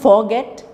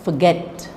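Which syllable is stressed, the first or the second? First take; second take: first; second. First: The stress is on the first syllable. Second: The stress is on the second syllable. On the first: The speaker calls it wrong. "It's not forget" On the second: The speaker calls it right. "it's forget"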